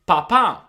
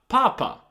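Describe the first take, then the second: First: The stress is on the last syllable. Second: The stress is on the first syllable. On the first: It means dad. The speaker calls it right. "it is very important to pronounce this word correctly because you want to say papà" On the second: It means the Pope. The speaker calls it wrong. "not papa"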